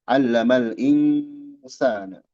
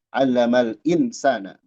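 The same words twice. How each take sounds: First: The nasal before s is held and lengthened. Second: The nasal before s is short, not held. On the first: The speaker calls it right. "Ditahan dulu" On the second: The speaker calls it wrong.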